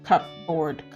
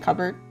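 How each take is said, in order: First: Each part is said as written, cup board. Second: It is said the usual everyday way. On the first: "why is it spelled cupboard" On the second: "but we say cupboard"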